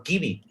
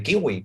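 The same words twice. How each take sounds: First: "kiwi" said with a B or V sound, kee-bee; W of "kiwi" turned into a Spanish B. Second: "kiwi" said with a gliding W, kee-gwee; rounded W sound in "kiwi". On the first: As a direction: say "kiwi" the old Spanish way, as kibi. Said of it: "siguen pronunciando". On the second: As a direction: say "kiwi" with the W as in English. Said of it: "en vez de kiwi". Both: Shown as a demonstration.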